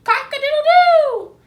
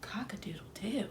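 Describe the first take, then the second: First: Loud high rooster crow; horse crowing. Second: Whispered crow, much softer. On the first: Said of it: "and crowed". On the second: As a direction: breathe the crow out in a hush. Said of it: "said softly". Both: A narrator's reading.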